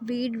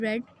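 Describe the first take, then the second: First: The vowel is a long 'ee' sound. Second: The vowel is a short 'e' sound. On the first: It is the present tense form. "जो रीड है उसकी तीनों forms ही spelling same होते हैं but उनको pronounce differently करते हैं" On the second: It is the past tense form. "ये रीड नहीं है, ये रेड है"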